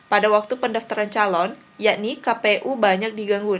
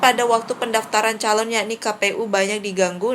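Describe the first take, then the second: First: There is a short pause before yakni. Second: It runs on with no pause before yakni. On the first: The speaker calls it right. "itu baru enak teman-teman nadanya. Jadi harus dikasih jeda sebentar" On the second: The speaker calls it wrong. "itu kan kayak kurang enak ya didengar"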